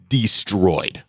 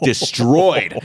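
First: "destroyed" set apart after a pause, at usual pitch; measured emphasis on DESTROYED. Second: "Destroyed" repeated higher and more forcefully; heavy stress on DESTROYED. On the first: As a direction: let "destroyed" land evenly after a beat. First, measured take of the word. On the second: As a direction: punch "Destroyed" with a raised, falling pitch. Repeats the word for emphasis. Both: Real, not acted.

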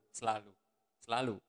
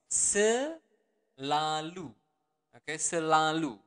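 First: Said in the usual way. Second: Very slow. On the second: Shown as a demonstration. Teacher to learners, drawn-out Selalu. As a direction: stretch every syllable of Selalu far out, slow. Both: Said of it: "the normal version would be selalu".

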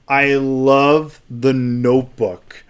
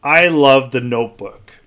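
First: I love The Notebook, said slowly with weight on "love"; slow emphatic repeat. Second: Said in the usual way. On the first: Real, not acted. Daring listeners to judge him, slow and emphatic. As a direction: lean on "love" and drag it out. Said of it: "You hear me?". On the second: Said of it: "There, I said it".

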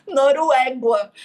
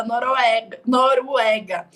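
First: "Noruégua" slow, with an added gua ending; imitating the mother-in-law: "Noruégua"; sogra's mispronunciation. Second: "Noruega" slow and deliberate, clear final ga; correct Noruega. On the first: (imitando a sogra: "Noruégua", devagar) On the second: Shown as a demonstration. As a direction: say "Noruega" carefully, slowly. ("Noruega" pronunciado devagar e certinho) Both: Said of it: "Ela só consegue falar".

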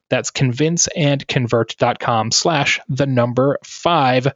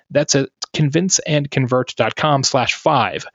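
First: Slower repeat with weight on "five"; slow down and lean on "the number five"; careful ad-read restatement, "five" falling at the end; slow URL repeat. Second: Said in the usual way. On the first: Shown as a demonstration.

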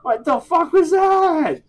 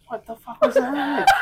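First: High, slow, loud disbelief; incredulous. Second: High, laughing shout; laughing disbelief. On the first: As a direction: stretch out the disbelief. Repeated louder, slower. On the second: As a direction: laugh out the question. Reacting to flapping demo. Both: Real, not acted.

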